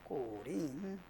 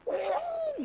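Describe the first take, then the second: First: It is said softly, with little energy. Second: It is shouted loudly, with great energy. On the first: The joy is held back. The speaker calls it wrong. "꼬링 이렇게 하시나요?" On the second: The joy bursts out uncontrollably. The speaker calls it right. "그냥 꼬링 막, 막 이렇게 할 거예요"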